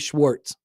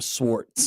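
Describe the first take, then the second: First: The name begins with an SH sound. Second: The name begins with a plain S sound. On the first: The speaker calls it wrong. "don't call me Schwartz" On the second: The speaker calls it right. "I'm Swartz"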